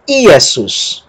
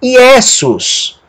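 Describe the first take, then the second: First: Iesus with the opening I hit; I-e-sus, falling off after the first vowel; stress on first syllable. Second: Iesus with a strong, long e; i-E-sus, middle vowel punched; stress on middle E. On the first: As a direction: lean on the start of Iesus. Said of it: "alguém poderia pronunciar". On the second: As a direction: lean on the e of Iesus. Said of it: "Ou poderia dizer". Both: Shown as a demonstration.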